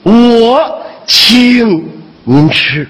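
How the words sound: The stress is on 请.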